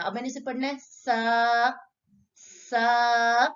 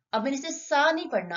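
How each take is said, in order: First: सा held long and louder; stretched vowel. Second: Said in the usual way. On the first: Shown as a demonstration. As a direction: draw out सा for two fingers' length. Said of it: "दो उंगलियां खींच के पढ़ना". (सा को दो उंगलियों जितना खींचें)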